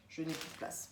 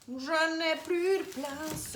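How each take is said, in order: First: Breathy whisper, under the breath. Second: « Je n'ai plus de place » stretched slow, high and louder; drawn-out wail. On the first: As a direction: murmure « Je n'ai plus de place » tout bas. (chuchoté) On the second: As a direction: moan it like a comic lament. (plainte lente, aiguë et plus forte) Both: Shown as a demonstration. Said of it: "répète autrement".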